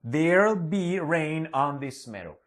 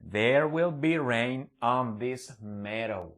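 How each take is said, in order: First: It says there will contracted into one syllable. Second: It says there will as two full words.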